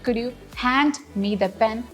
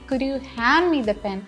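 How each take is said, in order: First: The d in hand is clearly pronounced before me. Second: The d in hand is dropped before me. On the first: The speaker calls it wrong. "which is wrong" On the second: The speaker calls it right. "So we are saying"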